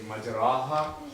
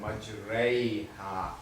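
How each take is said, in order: First: The long vowel after r is a plain open 'aa'. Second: The long vowel after r bends toward 'ee'. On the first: The speaker calls it wrong. "instead of saying majraha" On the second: The speaker calls it right. "we pronounce it as majraiha. Complete imala"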